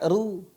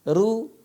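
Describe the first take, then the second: First: The syllable is pronounced light and thin. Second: The same.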